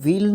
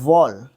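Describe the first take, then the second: First: The vowel is a long 'ee' sound. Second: The vowel is an 'er' sound. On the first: The speaker calls it wrong. "सबसे पहले तो व्हील नहीं बोलते इसको" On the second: The speaker calls it right. "इसको pronounce करते हैं वॉल"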